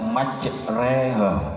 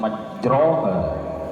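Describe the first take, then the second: First: The vowel after r sounds like e. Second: The vowel after r sounds open, like o. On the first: It is read with imalah as the rule requires. "Kenapa kok dibaca majreha?" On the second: It is the usual reading without imalah. "Sebenarnya kan dibaca aslinya kan majroha"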